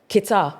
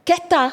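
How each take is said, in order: First: Kita with a flat clipped first vowel, KEE-tah; Kita, her own softened version. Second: Keta with an open eh vowel, KEH-tah, said higher; Keta corrected. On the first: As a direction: say Kita the way she grew up saying it. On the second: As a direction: give Keta the Ghanaian way, as a correction. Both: Retold or imitated. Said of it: "That's not how you say it".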